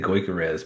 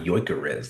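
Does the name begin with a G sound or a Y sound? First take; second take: G sound; Y sound. First: The name begins with a hard G sound. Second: The name begins with a Y sound. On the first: "I say Goikarez" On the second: "like the G's not even there"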